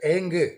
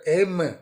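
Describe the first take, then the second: First: The syllable ends with a nasal ng sound. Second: The syllable ends with a closed-lip m sound. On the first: It invokes the goddess Mahakali. "तो इधर एंग, तो माँ सरस्वती इधर महाकाली हो गए हैं" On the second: It invokes the goddess Saraswati. "उधर एम, उधर माँ सरस्वती है"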